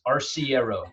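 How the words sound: It is pronounced the American way. "in uh, American it's Arciero"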